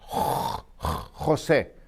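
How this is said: It is said with a Spanish accent.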